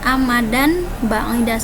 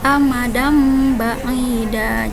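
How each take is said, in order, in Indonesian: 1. Bunyi n datang sebelum b. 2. Bunyi m datang sebelum b. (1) "bukan amadan ba'ida, salah" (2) "tapi amadam ba'ida, jadi membalik menjadi huruf mim"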